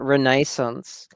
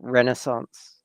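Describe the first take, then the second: First: It is said the European way. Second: It is said the American way.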